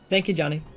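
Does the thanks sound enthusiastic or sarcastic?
sarcastic. The thanks sounds flat and sarcastic. The thanks seems insincere. The speaker calls it wrong. "that sounded really sarcastic"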